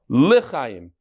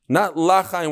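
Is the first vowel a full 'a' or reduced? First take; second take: reduced; full a. First: The first vowel is short and reduced. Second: The first vowel is a full 'a' sound. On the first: It means to life. The speaker calls it right. "say it with a shva" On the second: It means not to live. The speaker calls it wrong. "with a patach"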